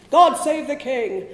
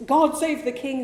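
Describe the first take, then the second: First: Slow, loud, grand toast in a put-on voice, laughing; mock patriotic proclamation. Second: Said in the usual way. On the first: Story character's closing line, mock-grand proclamation. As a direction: proclaim "God save the king" with hammed-up pomp, slow and loud. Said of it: "one of the Irish characters going".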